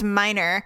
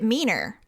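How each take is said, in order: First: The first vowel sounds like 'my'. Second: The first vowel sounds like 'me'. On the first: The speaker calls it right. "no, it's Miner" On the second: The speaker calls it wrong. "he pronounced it Meaner because I guess for French"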